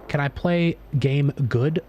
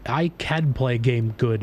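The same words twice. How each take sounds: First: Slow dumb caveman asking; dopey slow caveman question, rising. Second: Slow dumb caveman boast; dopey slow caveman statement, falling. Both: Acted. Dumb caveman gamer bit.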